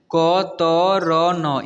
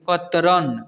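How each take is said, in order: First: कतरन very slow, each letter separate; कतरन broken into drawn-out letters; spelled out letter by letter. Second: Said in the usual way. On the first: Shown as a demonstration. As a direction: sound out कतरन one long letter at a time. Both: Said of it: "इसे पढ़ेंगे".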